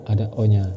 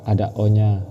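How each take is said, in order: Both takes have the same delivery.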